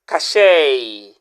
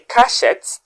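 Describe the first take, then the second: First: The word ends with an 'ay' sound. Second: The word ends with an 'et' sound. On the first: The speaker calls it right. "the letters et at the end sounds A" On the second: The speaker calls it wrong. "If you say cachette, that's absolutely wrong"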